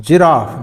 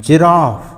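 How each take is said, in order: The two takes are said the same way.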